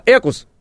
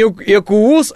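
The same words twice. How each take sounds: First: Экус stressed on the first syllable, "E-kus"; short Экус, weight on the E; correct model-name stress. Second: Экуус with a long stressed second syllable, "e-KUUS"; wrong model-name stress. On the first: Correcting the listeners, Экус said "E-kus" with first-syllable stress. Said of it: "и не Экуус". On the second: Showing listeners the wrong name, Экуус as a drawn-out "e-KUUS". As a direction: drag out the end of Экуус. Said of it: "а Экус". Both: Shown as a demonstration.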